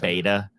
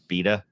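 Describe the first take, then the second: First: It is said with an American accent. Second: It is said with a British accent.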